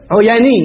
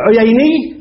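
First: "عياني" as uyaa-nii, with a long aa; alternative variant. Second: "عييني" as uyay-nii, with an ay glide; permitted variant. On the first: Teacher gives the other allowed form, "عياني" with long aa. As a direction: open "عياني" to a long aa, no glide. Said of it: "ويجوز أن تقول عياني". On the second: Teacher gives the first allowed form, "عييني" with ay. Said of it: "تقول يجوز تقول عييني". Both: Shown as a demonstration.

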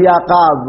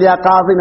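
First: يا قاض stopped on the emphatic "d", no vowel after it; final ya dropped. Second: يا قاضي ending in a clear long "ee"; final ya kept. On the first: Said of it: "مو مثل يا قاض". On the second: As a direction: keep the final "ee" sounded on قاضي. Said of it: "ما نحذف الياء". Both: Shown as a demonstration.

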